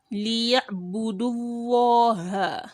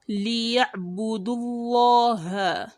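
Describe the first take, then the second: Both takes have the same delivery.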